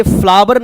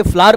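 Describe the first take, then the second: First: Flower misread as "फ्लावर", with a clear v sound; wrong pronunciation. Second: "फ्लावर" said as flaar, without the v; correct pronunciation. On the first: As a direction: say "फ्लावर" in two syllables, flaa-var. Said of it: "इसे फ्लावर नहीं पढ़ेंगे". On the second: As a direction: run "फ्लावर" together as flaar. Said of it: "फ्लावर पढ़ेंगे". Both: Shown as a demonstration.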